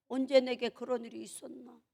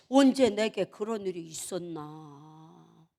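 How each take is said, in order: First: Said in the usual way. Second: Low, slow, drawn-out pondering; slow, deep-pitched wondering; slow musing. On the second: Acted. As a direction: stretch it out low as if in solemn reflection. Acted calm musing after prayer.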